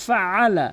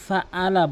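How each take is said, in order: First: ফাআলা drawn out with a throat ayn; correct ayn. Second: ফাআলা with a plain hamza for ayn; common mispronunciation. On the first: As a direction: squeeze the middle "a" of ফাআলা in the throat. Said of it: "বলতে হবে ফাআলা". (ফাআলা-তে গলার আইনের উচ্চারণ) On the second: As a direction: say ফাআলা without squeezing the throat. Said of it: "কখনোই ফাআলা বলবেন না". (ফাআলা-তে আইন ছাড়া সাধারণ "আ") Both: Shown as a demonstration.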